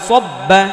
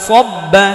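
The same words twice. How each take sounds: Both takes have the same delivery.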